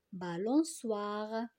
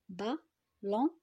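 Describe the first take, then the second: First: Slow, whole word. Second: "Balançoire" as ba, lan, çoi, re; syllable by syllable. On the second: Teacher helps pupils count syllables, "Balançoire" separated piece by piece. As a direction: chop "Balançoire" into four syllables with pauses. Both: Shown as a demonstration. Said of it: "dans la troisième syllabe".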